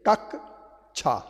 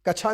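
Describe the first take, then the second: First: The first consonant is doubled before the second syllable. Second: The first consonant is said once, not doubled. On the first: The speaker calls it right. "संयुक्त वर्ण के पहले अक्षर को दो बार बोलना पड़ता है" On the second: The speaker calls it wrong. "नहीं बोलती"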